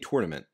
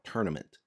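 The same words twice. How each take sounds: First: The first syllable sounds like the word tour. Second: The first syllable sounds like the word turn. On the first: This follows the spelling of the word. The speaker calls it right. "I say tournament because it's spelled tournament. It's T O U R" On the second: This is how most other people say it. The speaker calls it wrong. "not tournament"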